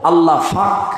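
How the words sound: The word starts with an f sound. The speaker calls it wrong.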